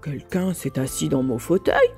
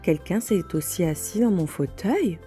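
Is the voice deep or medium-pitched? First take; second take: deep; medium-pitched. First: It is said in Papa Bear's deep voice. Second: It is said in Mama Bear's medium voice.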